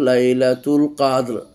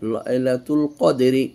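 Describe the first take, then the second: First: The last word ends abruptly on the r sound. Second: The last word ends with a short i vowel. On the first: The reader stops at the end of the verse. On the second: The reading continues without stopping.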